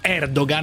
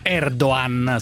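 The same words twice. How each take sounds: First: A g sound is pronounced in the middle. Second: No g sound is pronounced in the middle. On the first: The speaker calls it wrong. "lo diciamo Erdogan" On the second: The speaker calls it right. "in realtà è Erdogan senza pronunciare la G"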